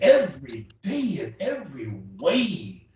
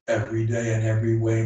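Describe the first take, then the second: First: The voice moves with lively, varied pitch. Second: The voice stays flat on one pitch. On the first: "And the others animated" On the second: "A monotone voice is like this"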